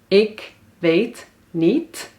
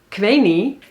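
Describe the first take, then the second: First: Each word is pronounced fully and separately. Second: The words are shortened and run together. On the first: "Ik weet niet wordt"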